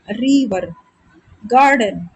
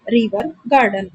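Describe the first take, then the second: First: river and garden said apart, first syllables drawn out; stressed syllables. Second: Said in the usual way. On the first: Shown as a demonstration. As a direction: lean on रि in river, गार in garden. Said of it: "ऐसे करके". (River, garden के पहले हिस्से पर ज़ोर) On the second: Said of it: "आपको स्ट्रेस देना पड़ रहा है".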